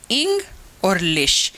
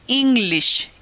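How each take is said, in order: First: "इंग", a pause, then "लिश"; split into syllables. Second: Said in the usual way. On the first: Shown as a demonstration. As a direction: break the word into two separate parts, "इंग" और "लिश". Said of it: "इंग में भी एक vowel sound". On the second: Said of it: "जिनमें दो syllables होंगे".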